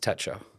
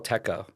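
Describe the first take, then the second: First: The middle consonant is a ch sound. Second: The middle consonant is a hard k sound. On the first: The speaker calls it right. "It's Techo" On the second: The speaker calls it wrong. "I used to call it El Teco, and that was wrong"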